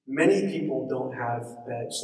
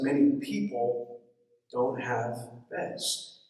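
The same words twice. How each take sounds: First: Said in the usual way. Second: Slow, weighty stress on "many people"; emphasized. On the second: Shown as a demonstration. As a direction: spell out "don't have beds" slowly, with pauses. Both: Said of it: "Let me emphasize".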